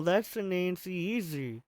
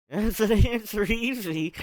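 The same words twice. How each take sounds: First: Said in the usual way. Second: Rereads "That's an answer easy?" in a confused, rising voice; stopping to question the garbled words; puzzled reread. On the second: Real, not acted. Reader baffled by own slip, puzzled reread. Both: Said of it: "I just read that backwards".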